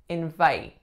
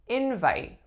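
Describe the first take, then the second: First: The stress is on the second syllable. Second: The stress is on the first syllable. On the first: It is used as a verb. "This would be the verb" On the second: It is used as a noun. "the strongest syllable, of course, is the first"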